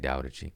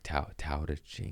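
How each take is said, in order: First: The first word begins with a D sound. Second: The first word begins with a T sound. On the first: The speaker calls it right. "It's a D, okay" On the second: The speaker calls it wrong. "No, it's a D sound"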